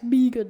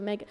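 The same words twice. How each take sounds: First: "Megan" said as BEE-gun, long ee; "Megan" with a long first vowel; wrong pronunciation. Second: Said in the usual way. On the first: Shown as a demonstration. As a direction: say "Megan" with EE in place of the short e. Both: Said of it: "trying to say that it's Megan instead of Megan".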